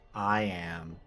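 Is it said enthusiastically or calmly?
calmly. It is said calmly, without much enthusiasm.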